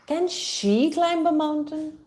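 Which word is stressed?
she. The stress falls on the word she. Someone else can, but maybe not this person. "So the focus is on she"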